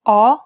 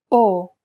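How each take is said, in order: First: Italian "O" as open "aw", mouth wide. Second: Italian "O" as narrow "oh" without a glide; closed O. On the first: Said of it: "Now the open O followed by the closed O". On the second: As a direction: keep the mouth narrower for a pure closed "O". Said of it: "followed by the closed O". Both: Shown as a demonstration.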